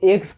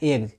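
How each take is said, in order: First: The word ends with a hissing s sound. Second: The word ends with a buzzing z sound. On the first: The speaker calls it wrong. "कितने लोग एग्स पढ़ते हैं, जी नहीं" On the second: The speaker calls it right. "एग्ज पढ़ना है"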